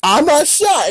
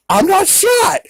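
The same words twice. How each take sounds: First: High-pitched cartoon protest; put-on high cartoon voice; cartoon dog. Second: Very high, squeaky cartoon voice; Porky Pig. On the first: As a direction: imitate a cartoon dog, high but less squeaky. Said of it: "And the dog's like". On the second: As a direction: imitate a cartoon pig in falsetto. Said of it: "And Porky Pig is like".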